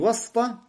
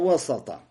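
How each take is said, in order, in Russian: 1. После s гласной нет. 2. После s идёт гласная a. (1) "Не васта" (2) "син с чем? С фатхой"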